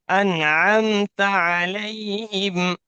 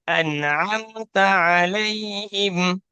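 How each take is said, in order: The two takes are said the same way.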